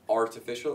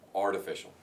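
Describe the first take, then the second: First: The t is a clear T sound. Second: The t sounds like a soft D.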